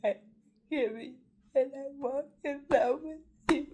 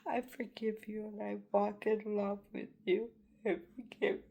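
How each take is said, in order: First: Higher and louder, forgiveness breaking out; the emotion surges through the repeat; emotional. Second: Choked-up, pitched-up plea of forgiveness; holding back tears while forgiving; emotional. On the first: Forgiving those who wronged her, rising emotional cry. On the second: Forgiving those who blame her, voice choked. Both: Real, not acted. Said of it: "I don't mean to get emotional".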